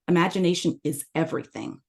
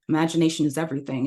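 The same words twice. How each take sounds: First: It is said with emphasized words and pauses. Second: It is said flatly, with no emphasis or pauses. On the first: The listener connects with it better. The speaker calls it right. "with this different emphasis and pausing, the vocal variety" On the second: The listener wants it to be over. The speaker calls it wrong. "This is without vocal variety"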